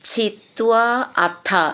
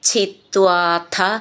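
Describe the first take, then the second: First: The words are said separately, not linked. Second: The words are run together into one word.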